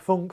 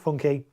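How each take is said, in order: First: The name is said as one syllable. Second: The name is said as two syllables. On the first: This is how some other people say it. "some people call it funk" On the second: This is how the speaker usually says it. "I always call it funky"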